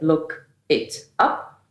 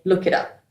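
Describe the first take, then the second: First: Each word is said separately, broken apart. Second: The words run smoothly together as one unit. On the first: The speaker calls it wrong. "break down the words" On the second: The speaker calls it right. "which makes it more fluent"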